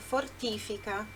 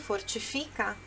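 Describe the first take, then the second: First: The word carries Italian stress placement. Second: The word carries Portuguese stress placement. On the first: "No italiano é fortifica" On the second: "no português é a mesma palavra, só muda a sílaba forte"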